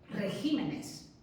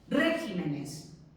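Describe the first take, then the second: First: The stress is on the second syllable. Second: The stress is on the first syllable. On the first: The speaker calls it right. "Continúan siendo esdrújulas, pero hemos movido el acento" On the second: The speaker calls it wrong. "no es regímenes, que además es que cuesta pronunciar"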